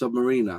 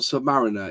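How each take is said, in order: First: It sounds like the word submarine plus R. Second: It sounds like sub followed by mariner. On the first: The speaker calls it right. "it's Submariner" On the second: The speaker calls it wrong. "not Submariner"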